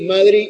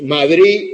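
First: The final d is weakened and relaxed. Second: The final d is clearly pronounced.

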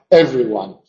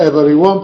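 First: The penultimate syllable of every is dropped. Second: Every written syllable is pronounced. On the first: "una pronunciación más natural" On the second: "ponemos todas las sílabas que está escrito"

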